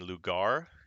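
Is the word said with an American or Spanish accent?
American. It is said with an American accent. The speaker calls it wrong. "instead of saying"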